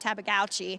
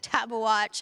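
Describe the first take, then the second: First: The name ends with a 'gouchi' sound. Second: The name ends with a 'watch' sound. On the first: The speaker calls it wrong. "I was going to call him Tabagouchi" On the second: The speaker calls it right. "but it's Tabawatch"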